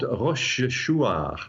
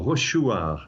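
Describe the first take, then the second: First: Rochechouart said slowly, in careful separated syllables; careful place-name. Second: Rochechouart run together as locals would say it; local French pronunciation. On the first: Astronomer introducing the French town, Rochechouart slowly sounded out. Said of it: "or Rochechouart is probably the way". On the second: Astronomer guessing at locals' version, Rochechouart in French style. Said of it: "probably the way the locals pronounce it". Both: Shown as a demonstration.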